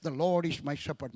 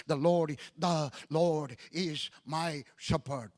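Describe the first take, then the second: First: Said in the usual way. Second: The Lord is my shepherd drawn out slowly, each word weighted; slow, weighty preaching. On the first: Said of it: "You can hear it on my YouTube". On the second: Shown as a demonstration. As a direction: lay "the Lord is my shepherd" down slowly, like a pulpit opening. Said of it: "My first message on that subject".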